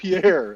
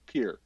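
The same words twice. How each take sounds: First: Pierre as two sounds, "pee-AIR"; French pronunciation. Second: Pierre said as one syllable, "peer"; local pronunciation. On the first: Retold or imitated. Quoting his wife on the French namesake, Pierre said "pee-AIR". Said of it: "named after a French guy". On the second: Shown as a demonstration. Correcting his wife, Pierre pronounced locally as "peer". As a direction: say Pierre like the word "pier". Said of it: "And it's pronounced".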